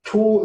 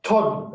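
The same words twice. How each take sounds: First: "to" with a long, held o; long omega. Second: "ton" with a short o; short omicron. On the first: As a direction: stretch the o in "to" as an omega. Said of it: "it's long". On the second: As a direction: keep the o in "ton" brief, as an omicron. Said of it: "because it's omicron". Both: Shown as a demonstration.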